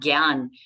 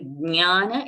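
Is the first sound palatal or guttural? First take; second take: guttural; palatal. First: The word starts with a guttural g sound. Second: The word starts with a palatal sound. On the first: This is the Hindi pronunciation. "Hindi they will say gyan" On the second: This is the Sanskrit pronunciation. "like we say jnana in Sanskrit"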